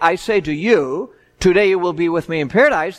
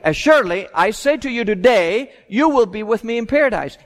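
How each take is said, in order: First: The pause comes before the word today. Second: The pause comes after the word today.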